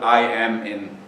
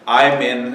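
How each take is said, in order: First: Every word is said in full, nothing dropped. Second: The words are contracted, dropping a sound. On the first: "instead of" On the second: "omission of sounds or syllables when speaking"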